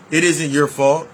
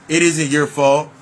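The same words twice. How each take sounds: The two takes are said the same way.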